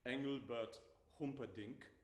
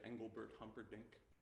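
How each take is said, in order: First: The name is said with German pronunciation. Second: The name is said with American pronunciation.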